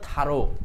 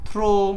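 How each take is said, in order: First: It is two syllables, tha then ro. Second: It is one syllable ending in an oh sound. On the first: The speaker calls it right. "এটা হলো থারো" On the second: The speaker calls it wrong. "এই থ্রু থ্রো সব উচ্চারণ হলো ভুল"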